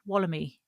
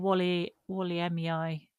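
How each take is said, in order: First: The name is said as one word, Wallamy. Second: The name is said as two words, Wally Wally. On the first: The speaker calls it right. "Apparently it's like wallaby, so it's Wallamy" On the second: The speaker calls it wrong. "we were calling it a Wally Wally pine or something like that"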